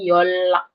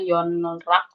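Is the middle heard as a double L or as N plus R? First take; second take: double L; N plus R. First: The middle is said as a double L. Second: The middle is said as N followed by R. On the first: The speaker calls it right. "Jadi double real. Jadi double L" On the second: The speaker calls it wrong. "bukan dibacanya Yon rak"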